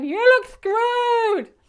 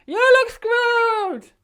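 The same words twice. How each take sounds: First: High, loud, drawn-out shout; shouting over wind. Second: High, loud, drawn-out shouted echo; shouting back over wind. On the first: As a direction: yell each word slowly over the gale. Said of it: "I'm going". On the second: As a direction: fire the same words back over the wind. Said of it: "she's going". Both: Retold or imitated.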